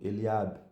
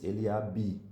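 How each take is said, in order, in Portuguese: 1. O B final é mudo, sem vogal depois. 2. O B final é pronunciado com uma vogal depois. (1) "A gente diz o B mudo" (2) "a gente não diz Eliabe, nem B"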